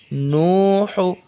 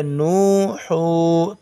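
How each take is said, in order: First: नू हू with both vowels stretched long; slow Quran reading drill; drawn-out vowels. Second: नू हू said fast with short vowels; rushed mistaken reading; wrong quick reading. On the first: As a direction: hold the ऊ in नू and हू slowly. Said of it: "नून वाव को खींचेंगे". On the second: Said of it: "तो गलत हो जाएगा". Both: Shown as a demonstration.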